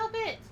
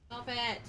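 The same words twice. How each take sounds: First: Scolding. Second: Said in the usual way. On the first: Real, not acted. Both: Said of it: "Yeah, no, stop it".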